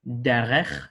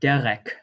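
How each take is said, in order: First: The word ends in a throaty CH sound. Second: The word ends in a hard K sound. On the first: The speaker calls it right. "a ka or a cha" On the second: The speaker calls it wrong. "a ka or a cha"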